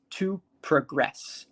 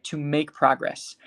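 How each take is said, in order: First: Slow "to progress" with GRESS stressed; verb stress, second syllable. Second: "To make progress" with PROG stressed; noun stress, first syllable. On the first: Teacher contrasts verb with noun, "progress" stressed on GRESS. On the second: Teacher contrasts noun with verb, "progress" stressed on PROG. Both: Shown as a demonstration. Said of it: "versus to progress".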